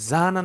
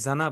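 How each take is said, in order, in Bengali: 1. দীর্ঘ স্বরটি প্রথম সিলেবলে আছে। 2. দীর্ঘ স্বরটি দ্বিতীয় সিলেবলে আছে। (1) "জা না না বলে" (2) "এই আলিফটাকে আপনি পরে নিয়ে যান... আপনি জানা বললেন"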